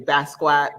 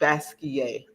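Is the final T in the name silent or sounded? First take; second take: sounded; silent. First: The final T sound is pronounced. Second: The final T sound is left silent. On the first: The speaker calls it wrong. "a lot of people say Basquiat" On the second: The speaker calls it right. "Basquiat the French pronunciation"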